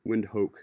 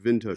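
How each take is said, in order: First: The word begins with a W sound. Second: The word begins with a V sound. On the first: The speaker calls it wrong. "Windhoek is what it looks like" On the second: The speaker calls it right. "but you pronounce it Vindhoek"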